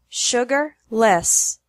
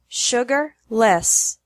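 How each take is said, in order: First: The syllables are separated by a pause. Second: The syllables are separated by a pause.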